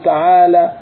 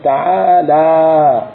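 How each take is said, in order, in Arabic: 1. تُقصَر حروف المد الطويلة وتُسرَع في النطق. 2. تُعطى حروف المد الطويلة مدّها الطبيعي الكامل.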